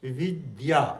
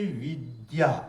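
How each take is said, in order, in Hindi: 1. बीच की ध्वनि 'd' है जो 'y' से जुड़ी है। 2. बीच की ध्वनि 'd' है जो 'y' से जुड़ी है।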